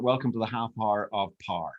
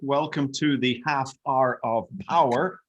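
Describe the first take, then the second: First: Power sounds like one syllable, par, Northern Irish. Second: Power has two syllables, in his everyday accent.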